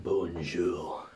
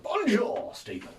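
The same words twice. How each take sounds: First: Low, drawn-out mock French accent; put-on French accent. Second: French greeting pitched high in a blunt English accent; unaltered English accent. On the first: English tourist greeting the French, put-on French accent. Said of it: "I do it with the accent". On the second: Shown as a demonstration. Learner greeting Stephen in French, plain English accent. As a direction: make no attempt at a French accent. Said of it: "just keep with the English accent".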